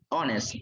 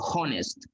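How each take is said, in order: First: The word starts with a vowel, H silent. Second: The word starts with an audible H sound. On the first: The speaker calls it right. "estas se pronuncian honest" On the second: The speaker calls it wrong. "No la vamos a pronunciar honest"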